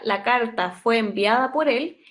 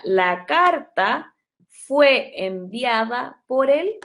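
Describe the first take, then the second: First: Said in the usual way. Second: Very slow, stretched out; slow dictation. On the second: Shown as a demonstration. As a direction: say it slowly as a model. (dictado lento y alargado) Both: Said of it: "yo lo que quiero expresar acá".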